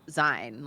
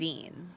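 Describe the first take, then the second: First: The vowel rhymes with the word vine. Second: The vowel rhymes with the word seen. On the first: The speaker calls it wrong. "it's not pronounced like Zine, like Vine" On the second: The speaker calls it right. "zine, like magazine"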